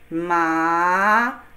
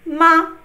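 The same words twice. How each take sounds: First: The pitch rises from mid to high. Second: The syllable is short, light and unstressed. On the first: It means numb. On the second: It marks a question. "question word"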